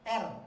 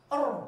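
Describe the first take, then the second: First: The r is light, with the tongue back relaxed. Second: The r is heavy, with the tongue back raised. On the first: "kalau tipis biasa aja" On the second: "Ini terangkat kalau tebal"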